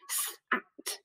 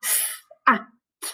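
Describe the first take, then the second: First: S, A, T run together quickly, breathy and quiet; bit faster. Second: Said in the usual way. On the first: Shown as a demonstration. Teacher speeds up sounding out S, A, T, faster. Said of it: "Bit faster". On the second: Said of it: "So use our robot arms this time".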